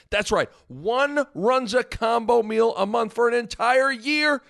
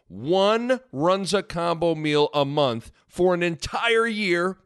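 First: Excited. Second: Said in the usual way. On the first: Acted. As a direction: pitch climbing high on year. Prize repeated, hyped up.

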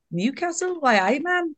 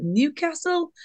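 First: Bad Geordie accent. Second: Said in the usual way. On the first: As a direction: put on a playful, badly faked Geordie lilt. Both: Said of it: "Is that a bad accent?".

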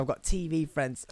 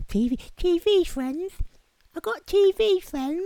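First: Said in the usual way. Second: Very high squeaky echo; put-on falsetto, teasing yourself; silly mocking voice. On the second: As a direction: squeak it like a tiny incredulous heckler. Mocks own boast in silly voice.

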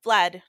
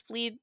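First: Fled said slowly with a short e, as the fix; correcting fleed to fled; corrected word fled. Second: Fleed said slowly as a wrong past tense, long ee; the slip fleed before correcting it; wrong word fleed. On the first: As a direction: land on fled as the right form. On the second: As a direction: stretch out fleed, the mistaken form. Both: Real, not acted. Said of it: "fled, not fleed".

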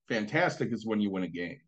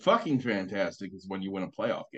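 First: Said in the usual way. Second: FUCKING lifted above a low, even line; stress on FUCKING. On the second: Retold or imitated. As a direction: lean on "fucking" to top plain "fantastic". Contrasts two grades of fantastic.

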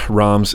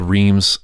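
First: "Reims" said as "Rahms"; French pronunciation. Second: "Reims" said as it's spelled, "Reems"; spelling pronunciation. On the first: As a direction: say "Reims" with an open vowel, like "Rahms". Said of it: "it looks like it's spelled Reims". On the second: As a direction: say "Reims" with a long ee. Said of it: "it looks like it's spelled". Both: Shown as a demonstration.

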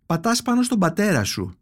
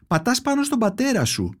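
First: Said in the usual way. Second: Repeated with more insistence, pitched higher; a mild push, the mother insisting; said louder. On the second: Acted. (επίμονα, πιο έντονα) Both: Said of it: "πιο δυνατά αυτή τη φορά".

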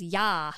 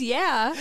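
First: Ya with an open "ah"; literal text reading. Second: Yeah with the usual short "eh" vowel; intended meaning. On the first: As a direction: read ya as "yah", not yeah. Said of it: "I read that every time as". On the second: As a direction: say yeah normally, not as "yah". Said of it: "I think she just means". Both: Shown as a demonstration.

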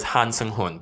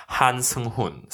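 First: "Han" with an open ah as in "father"; "Han" pronounced hahn, the Korean way. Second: "Han" with a flat American a as in "hand"; "Han" anglicized to rhyme with "can"; Americanized Han. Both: Shown as a demonstration. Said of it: "Han is how you pronounce it in Korean".

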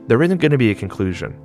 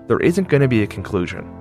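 No difference in how they are said.

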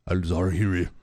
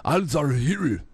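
First: Al Zawahiri in a mock Chinese accent, pitched lower; lower, jokey Chinese accent on "Al Zawahiri". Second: Al Zawahiri in a mock Japanese accent, pitched higher; higher, jokey Japanese accent on "Al Zawahiri". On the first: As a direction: say "Al Zawahiri" the way a Chinese speaker might, lightly mocking. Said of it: "no, uh, that's the Chinese". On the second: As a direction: say "Al Zawahiri" as a Japanese speaker might, playfully. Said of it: "that's the Japanese saying it".

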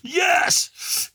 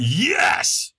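First: Imitating a yell at the top of the lungs, much higher; screamed yes. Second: Said in the usual way. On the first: Ticked-off firewalker answering the trainer, full scream. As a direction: throw your arms up and scream it out. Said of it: "I screamed at the top of my lungs". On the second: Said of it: "he could tell I wasn't in a peak state".

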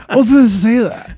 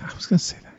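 First: Put-on high whiny child, laughing; little kid voice. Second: Breathy whispered aside; whispering. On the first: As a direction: act like a sulky four-year-old. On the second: Real, not acted. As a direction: say it under your breath. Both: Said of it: "I've been around four-year-old too long".

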